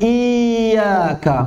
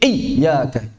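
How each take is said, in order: First: The doubled y sounds like a long vowel. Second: The doubled y is pressed too hard. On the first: "enggak ada tekanan sama sekali. Iyyaka menyerupai mad" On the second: "berlebihan dalam mengucapkannya saat tasydid"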